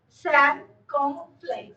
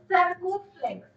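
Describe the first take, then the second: First: "Circumflex" drawn out very slowly; slow repeat. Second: Said in the usual way. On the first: Shown as a demonstration. Teacher repeats the accent's name for students, slowly.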